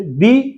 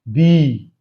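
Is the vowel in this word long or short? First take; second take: short; long. First: The vowel is short and quick. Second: The vowel is long and drawn out. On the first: "छोटी का मात्रा which take little time" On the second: "बड़ी का मात्रा लगाते हैं it take a longer time, खींचता है"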